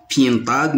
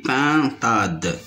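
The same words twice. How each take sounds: First: PINTADE wrongly said as "pientade", with a y glide; mispronounced vowel. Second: PINTADE with a pure nasal "in", no glide; correct nasal vowel. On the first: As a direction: slip a y sound into the first syllable of PINTADE. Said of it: "On dit pas pintade". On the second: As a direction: say PINTADE cleanly as pin-tade. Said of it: "mais on dit pintade". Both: Shown as a demonstration.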